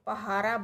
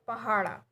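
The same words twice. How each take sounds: First: The middle consonant is a plain tapped r. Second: The middle consonant is a retroflex flap. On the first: The speaker calls it wrong. "अक्सर पहाड़ा को पहाड़ा बोला जाता है, तो ये पहाड़ा नहीं है" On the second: The speaker calls it right. "सही लफ्ज़ है पहाड़ा"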